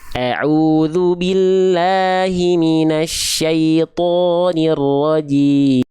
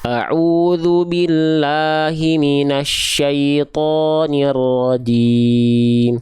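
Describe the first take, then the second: First: The A vowels are bright and thin, spread like smiling. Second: The A vowels are plain, with just an open mouth. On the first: "Kalau dia sambil senyum" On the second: "Kalau dia bunyi vokal A-nya cuma buka mulut"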